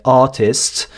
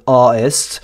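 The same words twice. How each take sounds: First: Artist with a clear T, formal British; standard British. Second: Artist with a glottal stop for the T; London glottal stop. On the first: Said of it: "en accent donc britannique, soutenu, on dirait". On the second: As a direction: swallow the T in artist. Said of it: "on va mettre un, un stop glottal". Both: Shown as a demonstration.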